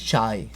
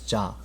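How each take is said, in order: First: The word ends with an 'eye' vowel sound. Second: The word ends with a plain 'ah' vowel. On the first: The speaker calls it wrong. "it's not even chai" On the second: The speaker calls it right. "it's cha"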